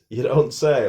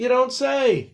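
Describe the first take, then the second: First: It sounds sarcastic and mocking. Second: It sounds genuinely surprised. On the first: The news is obvious and already known. "can also be used in a sarcastic way" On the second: The news is new and interesting. "this one is genuine surprise"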